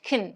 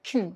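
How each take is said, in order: First: The word has a short, weak vowel. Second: The word has a short, weak vowel.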